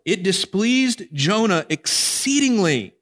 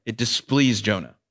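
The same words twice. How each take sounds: First: "displeased" drawn out slowly and set high, falling at the end; slow stress on displeased. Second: Said in the usual way. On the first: Shown as a demonstration. Preacher reading the verse aloud, slow and weighty on "displeased". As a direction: read it slowly, leaning hard on "displeased".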